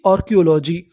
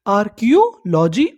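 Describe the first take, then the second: First: Said in the usual way. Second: archaeology slowed as आर-कियो-लॉजी, rising; syllable by syllable. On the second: Shown as a demonstration. Teacher asking learners what the study is called, slow and rising. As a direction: break archaeology into slow lifted parts. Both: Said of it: "उसे हम लोग क्या बोलते हैं".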